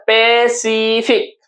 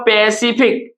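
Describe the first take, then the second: First: पैसिफिक very slowly, pe, see, fik; पैसिफिक drawn out in three separate beats; pronunciation demo. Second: Said in the usual way. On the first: Shown as a demonstration. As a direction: stretch each syllable of पैसिफिक. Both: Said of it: "हम लोग क्या उच्चारण करते हैं".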